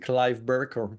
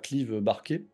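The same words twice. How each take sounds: First: The name is said with an English accent. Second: The name is said with a French accent. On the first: The speaker calls it right. "on a essayé de bien prononcer Clive Barker, you know?" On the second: The speaker calls it wrong. "et pas Clive Barker"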